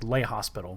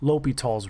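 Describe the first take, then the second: First: The name is said with an s sound. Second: The name is said without an s sound. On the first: "it would have actually been pronounced like Le Hospital" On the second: "This is an Anglicanization of his name"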